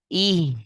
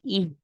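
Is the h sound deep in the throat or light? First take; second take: deep; light. First: The h comes from deep in the throat. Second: The h is a light, breathy sound. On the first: The speaker calls it right. "tenggorokan bawah" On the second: The speaker calls it wrong. "Jangan ih. ... Itu hak Indonesia"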